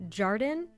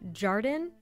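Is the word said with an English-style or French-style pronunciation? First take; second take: French-style; French-style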